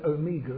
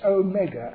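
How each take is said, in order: First: The middle syllable does not sound like 'meg'. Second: A long O, then 'meg' as in megaphone. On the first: This is the usual English way of saying it. The speaker calls it wrong. "The English use of the word Omega is not what you should read" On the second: This is how the Greek word was said. The speaker calls it right. "It's a long O, it's Omega, as in megaphone"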